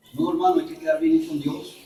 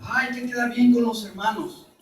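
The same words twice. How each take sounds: First: Said in the usual way. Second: Softer, lightly whiny sigh on "Ay, hay que quedar bien"; mock people-pleaser. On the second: Preacher mimicking a people-pleasing brother, softer and mildly whiny.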